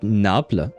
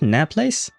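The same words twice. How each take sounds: First: It is said with a French pronunciation. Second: It is said with an English pronunciation. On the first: "in French we say Naples" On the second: "in English it is Nap Naples. I guess that's how you pronounce it"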